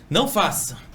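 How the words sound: It is said in a harsh, rude tone.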